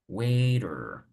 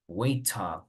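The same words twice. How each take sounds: First: It is said with an American English R. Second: It is said with a British English accent. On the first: "you need to make an effort to say waiter" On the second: "You can stick to British English if you want"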